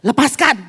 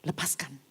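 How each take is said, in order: First: Lepaskan barked much louder, firm falling end; loud command. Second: Low, soft Lepaskan almost under the breath; quiet command. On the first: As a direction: shout Lepaskan as an order. Smith loudly ordering release. (Lepaskan diteriakkan tegas) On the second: Smith quietly ordering release. (Lepaskan diucapkan pelan dan rendah) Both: Retold or imitated.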